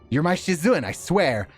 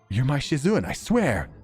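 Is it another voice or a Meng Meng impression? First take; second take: Meng Meng; another voice. First: It is said in an imitation of Meng Meng's voice. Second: It is said in a voice unlike Meng Meng's.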